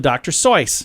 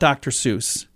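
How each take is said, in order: First: The name is said rhyming with voice. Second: The name is said not rhyming with voice. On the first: This is how the family says the name. The speaker calls it right. "pronounces it Soyce, rhyming with voice" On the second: This is the common mistaken way to say it. The speaker calls it wrong. "Chances are you're pronouncing Doctor Seuss wrong"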